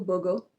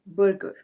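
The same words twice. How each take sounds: First: The R sounds are silent, British style. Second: The R sounds are pronounced, American style.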